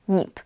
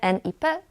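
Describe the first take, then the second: First: It is pronounced together as one single word. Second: It is spelled out as separate letter names. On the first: The speaker calls it right. "czytamy ten skrót jak słowo" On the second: The speaker calls it wrong. "Nie jak litery"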